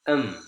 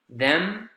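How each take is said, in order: First: The initial consonant is dropped, leaving um. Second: The word keeps its initial TH consonant.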